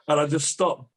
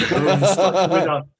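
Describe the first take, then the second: First: Said in the usual way. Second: Laughing. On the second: Real, not acted. Laughing while retelling failed squat.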